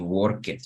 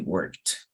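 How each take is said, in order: First: The ending is said as an extra syllable. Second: The ending is a plain t sound. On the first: The speaker calls it wrong. "You don't say" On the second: The speaker calls it right. "you say"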